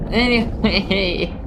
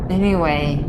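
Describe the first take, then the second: First: Slow stretched "anyway" falling at the end; drawn-out anyway. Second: Said in the usual way. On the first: Real, not acted. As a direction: drag out "anyway" slowly, higher.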